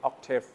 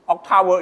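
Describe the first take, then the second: First: The vowels are reduced, English style. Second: Every vowel is fully pronounced, German style. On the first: This is how it is said in English. "In English, we would say octave" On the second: This is how colleagues in Germany say it. "October is the pronunciation in Germany with my colleagues"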